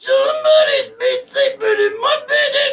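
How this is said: It is said in a squeaky voice.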